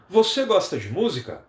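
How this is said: It is said with question intonation. It asks something. "A pergunta: ... minha entonação mudou"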